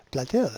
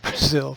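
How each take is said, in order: First: Brazil said as Blazil with an L; mock Chinese accent L. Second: Said in the usual way. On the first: Quoting the minister's tweet, Brazil said as Blazil. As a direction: swap the R in Brazil for an L, mocking. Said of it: "substituted the letter R with capital L". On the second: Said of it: "instead of".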